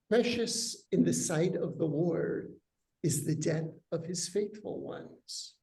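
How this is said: It is said as a statement, falling at the end. The death of the faithful is precious to God. "Is that a statement"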